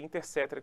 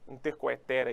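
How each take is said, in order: First: The vowel after 'inter' is a plain e. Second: The vowel after 'inter' is a diphthong. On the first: This is how it is actually pronounced. The speaker calls it right. "mas é Intercetera que se pronuncia" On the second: This follows the written spelling. The speaker calls it wrong. "e escreve"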